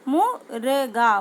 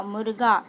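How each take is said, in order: First: मुर्गा drawn out slowly, syllables apart; slow syllable-by-syllable reading. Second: Said in the usual way. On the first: Shown as a demonstration. Teacher shows the corrected word मुर्गा, sounded out slowly. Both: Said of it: "तो क्या हो जाएगा".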